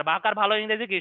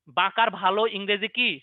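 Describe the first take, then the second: First: Said in the usual way. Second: Slow teacher question. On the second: Shown as a demonstration.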